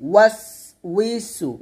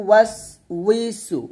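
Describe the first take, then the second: Both takes have the same delivery.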